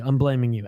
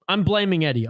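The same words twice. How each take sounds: First: Dropped low on "I'm blaming you"; lower pointed blame. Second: Said in the usual way. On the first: Shown as a demonstration.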